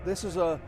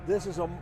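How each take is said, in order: Both takes have the same delivery.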